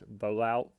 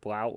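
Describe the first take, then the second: First: The name is said with an extra sound. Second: The name is said without the extra sound. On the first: The speaker calls it right. "There's an I there" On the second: The speaker calls it wrong. "I definitely pronounced that wrong"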